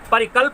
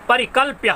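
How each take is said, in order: First: The word ends without any 'ya' sound. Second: The word ends with a clear 'ya' sound. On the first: The speaker calls it wrong. "परिकल्प नहीं कहिएगा, यदि परिकल्प कह देंगे तो गलत हो जाएगा" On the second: The speaker calls it right. "परिकल्प्य है"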